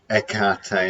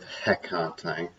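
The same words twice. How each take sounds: First: The word starts without an H sound. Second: The word starts with an H sound.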